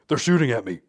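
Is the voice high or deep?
deep. It is said in a lowered, deep voice.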